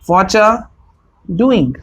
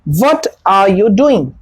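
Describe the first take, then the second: First: 'What are you' is blended into one word, 'whatcha'. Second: Each word of 'what are you' is said separately.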